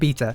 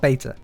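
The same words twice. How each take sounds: First: The word is said with a British pronunciation. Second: The word is said with a non-British pronunciation. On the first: "in the U K, we pronounce it beta" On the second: "not beta"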